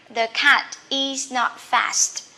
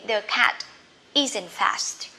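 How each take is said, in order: First: Is not is said as two full words. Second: Is not is contracted into isn't. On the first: This is the written form. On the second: This is the quicker spoken form. "in speaking, you can say quickly"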